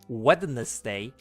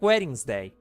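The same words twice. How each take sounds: First: It is said with three syllables, including 'nes'. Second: It is said with two syllables, dropping 'nes'. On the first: The speaker calls it wrong. "you don't say Wednesday, even though there's a fucking N E there" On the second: The speaker calls it right. "You say like wedding. It's like Wednesday"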